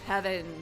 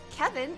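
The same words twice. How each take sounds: First: The name is said in a deep voice. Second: The name is said in a normal voice.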